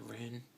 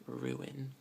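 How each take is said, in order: First: Ruin squeezed to one syllable, roon. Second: Ruin in two syllables, roo-in. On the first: Speaker showing the local ruin. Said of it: "people actually say ruin". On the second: Speaker showing the proper ruin. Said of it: "pronounced like ruin". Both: Shown as a demonstration.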